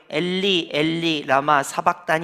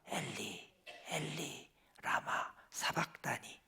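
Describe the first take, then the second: First: It is said clearly and crisply, with full breath. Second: It is said faintly, like a dying breath. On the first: "여러분처럼 또록또록하게" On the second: "정말로 돌아가시기 직전이니까"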